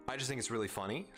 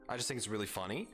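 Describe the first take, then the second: No difference in how they are said.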